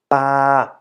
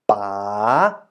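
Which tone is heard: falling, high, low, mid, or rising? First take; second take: mid; rising. First: The pitch stays level in the middle. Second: The pitch dips and then rises. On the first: "And for the middle tone" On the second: "And the rising tone"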